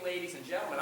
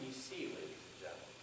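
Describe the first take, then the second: First: Lifted, higher "ladies and gentlemen"; showy, raised-pitch greeting; range brought up. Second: Soft, understated address to the audience; much quieter, subtle delivery; toned down. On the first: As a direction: raise the range quickly on the address. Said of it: "I brought the range up pretty quick". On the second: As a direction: ease gently into "ladies and gentlemen". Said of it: "it actually tones me down". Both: Shown as a demonstration.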